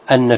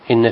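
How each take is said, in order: First: The word begins with the vowel a, anna. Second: The word begins with the vowel i, inna. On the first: The speaker calls it right. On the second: The speaker calls it wrong.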